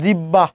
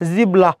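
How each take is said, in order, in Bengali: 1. মাঝখানে একটি দ্বিত্ব b ধ্বনি। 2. মাঝখানে b এবং তারপর l। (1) "আজীবন বলেছেন জিব্বা" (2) "জিব্বা কোনোটাই নয়"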